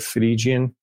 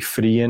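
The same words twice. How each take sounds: First: The G is pronounced as a J sound. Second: The G is softened toward a Y sound.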